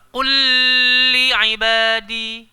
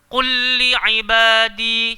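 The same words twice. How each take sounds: First: The doubled L is held with a nasal hum. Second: The doubled L merges quickly without nasal hum. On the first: The speaker calls it wrong. "Salah. Sebab idgham dekat sini tak perlu kepada dengung" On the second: The speaker calls it right. "Masuk laju-laju"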